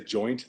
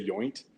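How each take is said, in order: First: The word begins with a J sound. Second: The word begins with a Y sound. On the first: This is the usual way to say the word. "they don't say joint" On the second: This is how speakers from the video's country say it. "they say yoint"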